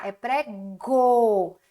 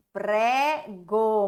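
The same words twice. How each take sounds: First: Pré-go bem devagar, separando as sílabas; syllable stretched. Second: Prego dito inteiro e claro; whole word. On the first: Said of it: "só que aqui não é pré-ga". (sílabas de pré-go bem devagar) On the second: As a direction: junte as sílabas em Prego. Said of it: "muito bem". (palavra Prego inteira) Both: Shown as a demonstration.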